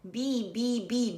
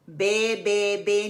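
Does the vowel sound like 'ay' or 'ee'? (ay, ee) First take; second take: ee; ay. First: The vowel sounds like 'ee' in 'bee'. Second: The vowel sounds like 'ay' in 'bay'. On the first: The speaker calls it right. "Busy बी जैसे हम कहते हैं" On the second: The speaker calls it wrong. "बे बे बे नहीं करना"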